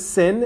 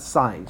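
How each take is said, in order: First: The word rhymes with 'pin', a short vowel. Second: The word rhymes with 'pine', a long vowel. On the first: The speaker calls it wrong. "now I know it says sin" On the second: The speaker calls it right. "but you pronounce that sine"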